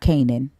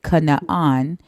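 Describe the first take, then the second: First: It is said as the English word Canaan. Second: It is said with Hebrew syllables, Ka-naan. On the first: The speaker calls it wrong. "and not" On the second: The speaker calls it right. "that's how you pronounce it"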